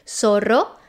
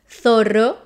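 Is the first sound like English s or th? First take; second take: s; th. First: The first sound is an s sound. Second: The first sound is a th sound. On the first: This is how it is said in Latin America. "Z in Spanish from Latin America is pronounced as an S" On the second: This is how it is said in Spain. "in Spain is pronounced"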